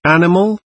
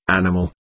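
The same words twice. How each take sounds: First: High, rising incredulous question; indignant echo. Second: Low, understated angry exclamation; bellowed insult. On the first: Landlord repeats Wroblewski's insult, high indignant question. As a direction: fling the word back as a question. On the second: Wroblewski insults the landlord, a restrained bellow. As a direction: throw out the insult low, not shouted. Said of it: "bellowed Pan Wroblewski". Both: A narrator's reading.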